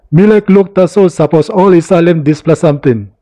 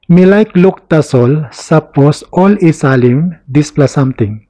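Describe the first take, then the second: First: It is said in the locals' own accent. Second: It is said in a careful, formal pronunciation. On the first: "in their accent" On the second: "in traditional or formal"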